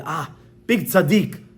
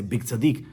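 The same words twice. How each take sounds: First: Slow, drawn-out exclamation of praise; mock admiration. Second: Low, unimpressed echo of praise; wife's sarcasm. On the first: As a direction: gush slowly as if hugely impressed. Outsiders admire the charitable man. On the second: Retold or imitated. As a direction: repeat the praise with dry scorn. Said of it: "The wife is gonna say".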